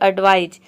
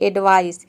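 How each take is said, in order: First: The word ends with a z sound. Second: The word ends with an s sound. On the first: The speaker calls it right. "ये होता है एडवाइज" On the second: The speaker calls it wrong. "अक्सर student गलती करते हैं, इसको बोलते हैं एडवाइस"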